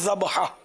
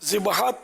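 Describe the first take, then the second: First: The first vowel is an 'a' sound. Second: The first vowel is an 'i' sound. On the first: The speaker calls it right. "यहाँ बोलेंगे ज़बहा" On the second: The speaker calls it wrong. "ज़िबहा तलफ़ुज़ यहाँ यहाँ दुरुस्त नहीं है"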